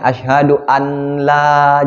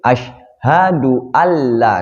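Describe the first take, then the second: First: A separate n sound is heard before la. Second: The n merges into a doubled l sound. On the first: The speaker calls it wrong. "kita nggak boleh membacanya asyhadu an la" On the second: The speaker calls it right. "karena disambut dengan huruf lam"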